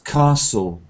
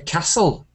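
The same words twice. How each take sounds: First: It is said with a southern English accent. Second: It is said with a northern English accent. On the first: "in Oxford, Cambridge, and London English, they try to use this pronunciation of" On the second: "in the north, um, they speak in Yorkshire and Scotland. They say"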